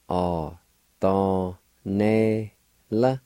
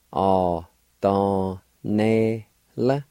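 No difference in how they are said.

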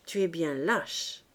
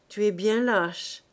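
First: Lower, slow, cold contempt; more insulting. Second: Contemptuous. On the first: Claire repeating the insult to her sister, colder. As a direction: lean on the insult, colder and slower. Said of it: "d'une voix plus insultante". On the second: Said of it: "dit Claire". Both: A narrator's reading.

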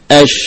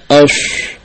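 First: "Ash" with a spreading SH, no whistle. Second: "ash" with a whistle added to the long SH; wrongly whistled. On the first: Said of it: "shin tidak demikian". ("Ash" menyebar tanpa sofir) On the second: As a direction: whistle through the SH of "ash" as the mistake. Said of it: "bukan ash". ("ash" salah, disertai bunyi siulan) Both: Shown as a demonstration.

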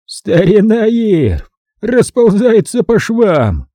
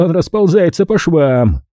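First: Slow, high, cackling delight; guffawing with glee. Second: Said in the usual way. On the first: A narrator's reading. Hutchins crowing over Irv's downfall, slow guffawing glee. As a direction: roar it out through a hoarse guffaw. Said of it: "раздался его хриплый гогот". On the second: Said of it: "Заходился он от восторга".

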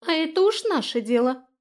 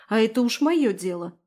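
First: High, loud little fairy voice; high-pitched echo of the retort; fairy backing her up. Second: Louder, curt retort; mildly irritated comeback; snapping back. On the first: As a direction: chime in defiantly as her ally. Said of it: "поддержала её Иса". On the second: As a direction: snap back defensively. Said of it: "огрызнулась Эстель". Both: A narrator's reading.

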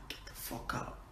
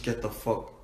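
First: Very soft, whispered curse; sneaky whisper. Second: Said in the usual way. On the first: Real, not acted. Told not to swear, sneaks it in whispered. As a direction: swear under the breath in a whisper.

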